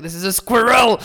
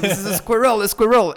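First: Put-on "squirrel" said high and loud as "skwer-el" in a French accent. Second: Put-on "squirrel" repeated high and loud as "skwer-el" with a French accent; frustrated, high and loud French repeat of "squirrel"; exasperated French squirrel. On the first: [name] insisting to his American friends, in a loud, high French accent. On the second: [name] repeating the word to teasing friends, in an exasperated loud French accent. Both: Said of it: "I'm like".

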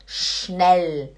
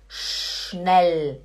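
No difference in how they are said.

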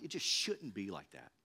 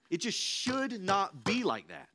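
First: It just shouldn't be like that, said low and soft; a soft lament; quiet, resigned statement. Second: "should not" slowed and pressed hard; slow down and lean on "should not"; emphatic, deliberate lament; firm stress on should not. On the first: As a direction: murmur it to yourself. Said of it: "repeats with emphasis". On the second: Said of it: "repeated more firmly". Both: Real, not acted.

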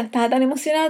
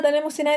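First: Said in the usual way. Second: Tan emocionada with the pitch jumping higher; more excited. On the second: Real, not acted. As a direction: gush it as the excitement returns.

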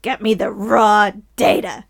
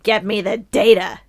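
First: Loud, punching the word raw; stress on raw. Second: Loud barking newspaper boss; bossy editor shout. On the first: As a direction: hit "raw" hard, bossy editor. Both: Acted. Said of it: "if I was Jameson".

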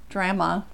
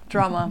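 First: Drama said as DRAM-uh with the a of cat; drama, first vowel flat like in trap; drama with a short a. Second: Drama said as DRAH-muh with the a of father; drama, first vowel open like in palm; drama with a broad a. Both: Shown as a demonstration. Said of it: "What if they say drama?".

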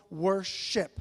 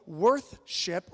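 First: Said in the usual way. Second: Says "worthship" with a TH sound, as in worth; deliberately blends worth into "worthship"; "worthship" pronounced worth-ship; slip of the tongue. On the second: Shown as a demonstration. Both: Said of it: "worthship or communal worship".

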